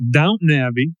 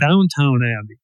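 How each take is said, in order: First: The first word is said as Downton. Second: The first word is said as Downtown. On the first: The speaker calls it right. "I was pronouncing it wrong, but it's uh, ... which is called Downton Abbey" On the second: The speaker calls it wrong. "I was always calling it Downtown Abbey"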